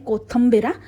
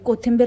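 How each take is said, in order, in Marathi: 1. मधल्या अक्षरात 'a' स्वर आहे. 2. मधल्या अक्षरात 'i' स्वर आहे. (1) "स्पेशल पार्वता माने डिक्शनरीतला शब्द आहे" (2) "सॉरी कोथिंबीर नाही"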